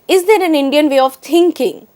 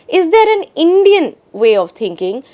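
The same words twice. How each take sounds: First: The stress falls on the word thinking. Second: The stress falls on the word Indian. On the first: "emphasizes the word thinking itself" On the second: "is now focused on the word Indian"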